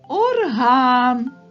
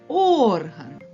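First: The stress is on the second syllable. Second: The stress is on the first syllable. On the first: It means a musical instrument. "як тільки ми поставимо наголос на звук А" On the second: It means a body organ. "Наголос падає на звук О"

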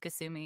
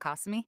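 First: The name is said with an English pronunciation. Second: The name is said with a Japanese pronunciation. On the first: This is the name as used in the English dub. The speaker calls it right. "my name was Kasumi ... For the localization" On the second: This is the name as used in the original Japanese. The speaker calls it wrong. "and not Kasumi"

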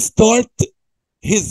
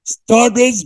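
First: The h at the start of 'his' is pronounced. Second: The h is dropped, linking 'start' into 'is'. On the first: "احنا عارفين start his way" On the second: "بنشيل الاتش. فنقول ايه؟"

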